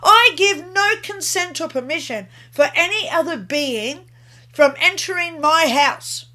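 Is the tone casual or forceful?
forceful. It is said forcefully, with conviction.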